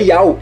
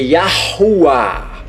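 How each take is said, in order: First: The name is said without its h sounds. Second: The name is said with its h sounds. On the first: The speaker calls it wrong. "você está omitindo este H aqui" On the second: The speaker calls it right. "é Yahuwah. Bem na pronúncia"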